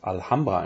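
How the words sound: The name is said with a German pronunciation. "it is pronounced Alhambra in German"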